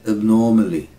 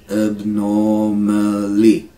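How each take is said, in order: First: Said in the usual way. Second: "Abnormally" slow, held on a level note; syllable by syllable. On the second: Shown as a demonstration. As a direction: stretch each syllable of "Abnormally". Teacher slows word into syllables.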